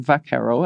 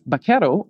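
First: The word is said the North American way. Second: The word is said the Spanish way.

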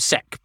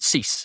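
First: The name is said like 'Sec'. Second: The name is said like 'Cees'. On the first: This is how people in the UK said it. "in the UK they called him Sec" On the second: This is how the man himself said it. "he pronounced it Cees"

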